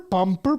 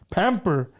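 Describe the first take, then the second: First: The word is said with a strong Spanish accent. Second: The word is said with a plain English accent. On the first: An older relative mispronounced the word. The speaker calls it wrong. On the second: The word is pronounced as intended. The speaker calls it right.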